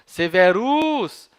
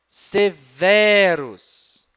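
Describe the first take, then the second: First: The stress is on the last syllable. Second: The stress is on the second-to-last syllable. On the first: The speaker calls it wrong. "a tônica fica sendo a última sílaba" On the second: The speaker calls it right. "Ah, melhor. E é assim que se pronuncia"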